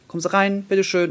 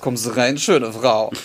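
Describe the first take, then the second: First: It sounds warm and friendly. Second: It sounds sleazy and leering.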